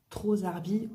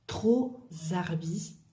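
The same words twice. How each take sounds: First: Said in the usual way. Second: Drawn-out trop zarbi, stress on trop; slow model phrase. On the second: Shown as a demonstration. Teacher modelling slang slowly for learners.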